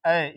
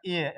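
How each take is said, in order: First: ए as open 'ae', like in cat; open A sound. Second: ए as closed 'ay', the letter name; wrong letter-name sound. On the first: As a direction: say ए with an open short-a vowel. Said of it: "हिंदी में लिख दिया हूँ ए". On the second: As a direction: say ए like English letter A. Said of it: "नहीं होता है ए". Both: Shown as a demonstration.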